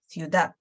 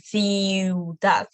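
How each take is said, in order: First: The i and u glide quickly together. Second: The i and u are drawn out separately. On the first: The speaker calls it right. "We're going to pronounce them quicker" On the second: The speaker calls it wrong. "So not going to be ciudad"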